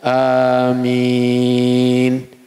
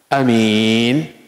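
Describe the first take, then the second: First: The first vowel is drawn out long. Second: The first vowel is clipped short. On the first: It asks for the prayer to be answered. The speaker calls it right. "maka dia dipanjangkan" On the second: It tells someone to be safe. The speaker calls it wrong. "A-nya pendek"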